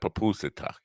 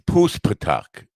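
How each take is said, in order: First: The name is said with four syllables. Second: The name is said with three syllables. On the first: The speaker calls it wrong. "not Papusatak" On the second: The speaker calls it right. "Say it right. It's Puspatak"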